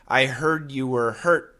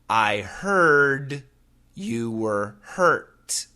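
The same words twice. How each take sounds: First: The sentence is said fast and naturally. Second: The sentence is said slowly and carefully. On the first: "and then normally" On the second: "I'm going to say it slowly"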